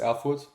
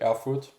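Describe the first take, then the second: First: The name is said with a German accent. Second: The name is said with an American accent. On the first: "That's how you pronounce it in German" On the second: "If you pronounce it in American"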